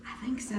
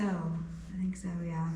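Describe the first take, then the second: First: Said in the usual way. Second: Breathy hushed repeat; whisper. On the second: Real, not acted. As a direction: drop to a whisper. Repeats answer, then whispers it.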